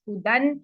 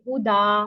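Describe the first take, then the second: First: The word ends with a final n sound. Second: The word ends on a long a vowel. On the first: The word is read joined to what follows. "ये सारे फतहा तनवीन पर एंड हो रहे हैं" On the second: The reader stops on this word. "हम करते हैं जी वक्फ। तो हम करेंगे हुदा"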